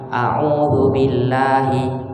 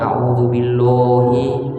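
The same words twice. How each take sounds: First: The L sound is light and thin. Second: The L sound is heavy and thick. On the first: The speaker calls it right. "oh tipis" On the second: The speaker calls it wrong.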